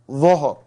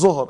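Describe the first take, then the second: First: The word starts with a th-like sound. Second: The word starts with a plain z sound. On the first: The speaker calls it right. "It is dhuhr" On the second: The speaker calls it wrong. "they think it is zuhr"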